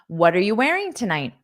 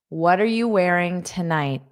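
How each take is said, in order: First: The sentence is said quickly at natural speed. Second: The sentence is said slowly and carefully.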